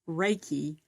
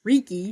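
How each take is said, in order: First: The first syllable sounds like 'ray'. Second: The first syllable sounds like 'rick'. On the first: The speaker calls it right. "the way to pronounce Reiki" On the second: The speaker calls it wrong. "instead of Reiki"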